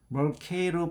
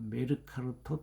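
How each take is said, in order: First: It is said with an English-style pronunciation. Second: It is said with a Korean-style pronunciation.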